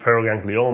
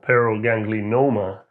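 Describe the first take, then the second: First: No extra n sound comes before the ending. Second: An extra n sound comes before the ending. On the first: The speaker calls it right. "as opposed to" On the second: The speaker calls it wrong. "the expert was adding an N in the middle"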